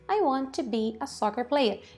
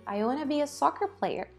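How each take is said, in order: First: Want and to are said as separate words. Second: Want to is contracted into one word, wanna.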